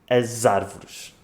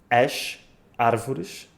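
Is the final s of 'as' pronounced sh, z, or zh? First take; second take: z; sh. First: The s sounds like z, linked to the vowel. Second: The s sounds like sh, words kept apart. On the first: The words are joined together. "mas quando juntamos" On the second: The word is read on its own. "a palavra sozinha lê-se sh"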